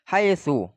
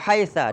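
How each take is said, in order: First: The word ends in an u vowel. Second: The word ends in an a vowel. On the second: "bil fathi"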